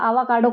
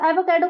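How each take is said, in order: First: The word begins with a long 'aa' sound. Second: The word begins with a short 'a' sound. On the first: The speaker calls it wrong. "गलत pronounce करती है" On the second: The speaker calls it right. "एवोकाडो को तो बोलना नहीं आ रहा"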